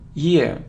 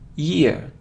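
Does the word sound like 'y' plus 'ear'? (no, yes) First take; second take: yes; yes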